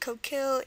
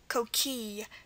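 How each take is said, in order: First: The word ends in an 'eel' sound with L. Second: The word ends in a plain 'ee' vowel. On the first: "the ill definitely is the first pronunciation" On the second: "can also be pronounced as E at the end"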